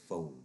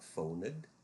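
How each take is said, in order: First: The ending is a plain d sound, no syllable. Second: The ending is said as a separate syllable. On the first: The speaker calls it right. "it is arrived and phoned" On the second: The speaker calls it wrong. "it is not phoned"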